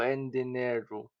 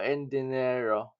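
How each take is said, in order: First: The final vowel sounds like 'u'. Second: The final vowel sounds like 'o'. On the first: "San Roqueño speakers tend to favor the vowels I and U" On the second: "the Caridad or Cavite Puerto variety prefers E and O"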